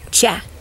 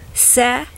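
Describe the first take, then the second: First: The syllable starts with a ch sound. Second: The syllable does not start with ch. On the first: The speaker calls it right. "you say cha" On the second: The speaker calls it wrong. "You don't say se"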